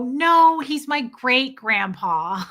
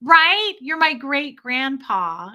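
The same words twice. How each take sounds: First: Loud no, then slow, teasing drawl; deadpan joke to the stranger; cheeky reply. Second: Loud high right, then slow teasing; cheeky agreement. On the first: Wife teasing a lady in a restaurant, cheeky. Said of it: "And I'd go". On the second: Wife teasing her old husband in public, playful. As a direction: play along with a grin. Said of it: "I'd go". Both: Retold or imitated.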